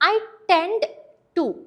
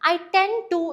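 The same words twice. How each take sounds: First: The d in tend is clearly pronounced. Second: The d in tend is nearly silent. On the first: The speaker calls it wrong. "ടെൻഡ് എന്ന് എടുത്ത് പറയരുത്, നിങ്ങൾക്ക് മനസ്സിലാവാൻ വേണ്ടി ഞാൻ പറയുന്നതാണ്" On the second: The speaker calls it right. "I ടെൻഡ് to എന്ന് പറഞ്ഞാൽ മതി. ഡി അവിടെ പാർഷ്യലി സൈലന്റ് ആണ്"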